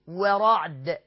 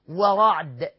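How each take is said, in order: The two takes are said the same way.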